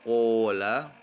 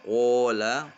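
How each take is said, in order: No difference in how they are said.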